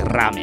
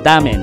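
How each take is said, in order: First: The word begins with a strong R sound. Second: The word begins with a sound between D and L. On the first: The speaker calls it wrong. "Only Yakuza would say ramen" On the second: The speaker calls it right. "You say damen"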